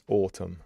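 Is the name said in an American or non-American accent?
non-American. It is said in a non-American accent. The speaker calls it right. "It's autumn"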